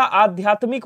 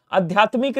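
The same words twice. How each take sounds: First: आध्यात्मिक with long opening aa; correct long vowel. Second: आध्यात्मिक with short first a; wrong short vowel. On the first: Teacher correcting students, long "aa" opening आध्यात्मिक. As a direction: stretch the first vowel of आध्यात्मिक. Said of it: "होता है". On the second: Teacher showing students the error, short start on आध्यात्मिक. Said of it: "नहीं होता". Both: Shown as a demonstration.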